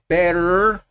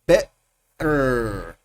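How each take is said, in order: First: The T is said the North American way. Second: The T is replaced by a glottal stop. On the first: "más norteamericano" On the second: "el T glotal"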